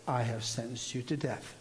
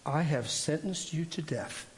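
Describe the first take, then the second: First: Softer, lower, gentle voice of the Lord; a hint of a sweet divine voice, hushed. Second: Slow, gentle, sweet voice of the Lord; a hint of a gentle, sweet divine voice. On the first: The Lord repeating the sentence to him, soft and gentle. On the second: The Lord speaking into his right ear, slow and gentle. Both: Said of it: "it's a gentle voice. It's really sweet".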